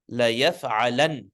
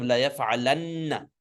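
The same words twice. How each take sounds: First: La yaf'alan ending on a single n with no vowel after it; light ending. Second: La yaf'alanna with a long doubled n, then a; heavy ending with shadda. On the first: Teacher demonstrates the light form with sukun, la yaf'alan closed on n. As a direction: stop la yaf'alan on a plain closed n. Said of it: "Now it's light". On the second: Teacher recalls the heavy form, la yaf'alanna with doubled n. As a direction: hold the nn in la yaf'alanna before the final vowel. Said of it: "with a shadda". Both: Shown as a demonstration.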